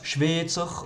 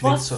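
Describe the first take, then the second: First: The first vowel is said long. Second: The first vowel is said short. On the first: "mit Doppel-I wäre es Schweizer ... Doppelvokal wird lang" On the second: "mit einem I wäre es"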